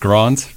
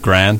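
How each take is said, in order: First: It is said in the speaker's home-country way. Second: It is said in the local American way.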